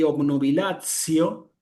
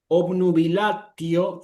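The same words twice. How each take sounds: First: It is said in ecclesiastical Latin pronunciation. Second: It is said in classical Latin pronunciation.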